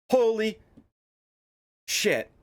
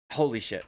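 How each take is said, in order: First: High, louder “Holy”, dropping on “shit”; stunned exclamation. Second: Said in the usual way. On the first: Real, not acted. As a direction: gasp it out in shock.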